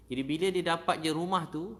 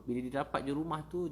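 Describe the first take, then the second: First: Loud, high, swelling with feeling; loud burst of emotion; excited burst. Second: Said in the usual way. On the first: Real, not acted. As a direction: lift it with joy. Emotional high point, restarted.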